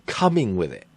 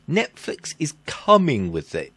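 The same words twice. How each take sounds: First: Skeptical, as if with an asterisk; "coming with it" said with doubtful scare quotes; air quotes. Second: Said in the usual way. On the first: Shown as a demonstration. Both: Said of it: "I put the asterisk".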